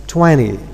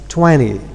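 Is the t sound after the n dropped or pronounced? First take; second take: dropped; dropped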